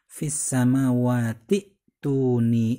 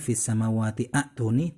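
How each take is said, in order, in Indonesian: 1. Tidak ada vokal yang dibunyikan sebelum 'tuni'. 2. Vokal 'a' dibunyikan sebelum 'tuni'. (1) "sehingga cara bacanya langsung"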